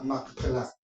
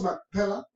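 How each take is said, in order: First: It is said with Hebrew stress on the A. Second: It is said the plain Spanish way. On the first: "en hebreo lleva el acento en la A" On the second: "lo decimos Macpela porque uh, no tiene el acento en español"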